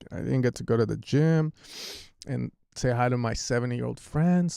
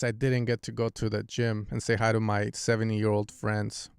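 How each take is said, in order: First: It is said with strong, expressive emotion. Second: It is said flatly, with little emotion. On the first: The speaker calls it right. "versus me saying, I'm so sad, guys" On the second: The speaker calls it wrong. "It just sounds very cold"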